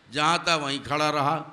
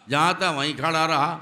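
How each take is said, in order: Both takes have the same delivery.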